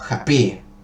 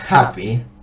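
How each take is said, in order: First: The stress is on the second syllable. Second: The stress is on the first syllable. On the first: The speaker calls it wrong. "si yo le pongo la, el énfasis este a la segunda sílaba" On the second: The speaker calls it right. "tendría que ponerle ese énfasis a, a la primera sílaba"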